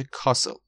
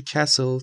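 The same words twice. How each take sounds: First: Castle with British long back A, "KAH-sul"; British pronunciation. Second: Castle with American short A, "KASS-ul"; American pronunciation. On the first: Teacher contrasting two accents for learners, British pronunciation. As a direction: say castle the British way, open A and silent T. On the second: Teacher contrasting two accents for learners, American pronunciation. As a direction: say castle the American way, front A and silent T. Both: Shown as a demonstration.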